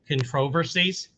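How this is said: It is said with a Canadian accent.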